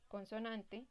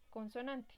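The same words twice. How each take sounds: The two takes are said the same way.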